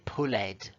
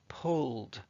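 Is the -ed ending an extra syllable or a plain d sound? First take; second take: extra syllable; plain d. First: The ending is said as an extra syllable. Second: The ending is said as a plain d sound. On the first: The speaker calls it wrong. "We don't say pulled" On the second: The speaker calls it right. "the way we say the ed is just like d"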